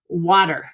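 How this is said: It is said in an American accent. "in American English, for example, we say"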